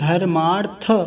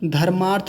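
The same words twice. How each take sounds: First: The final 'th' is full, with a vowel. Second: The final 'th' is clipped, with no vowel. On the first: The speaker calls it right. "थ पूरा है" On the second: The speaker calls it wrong. "नहीं"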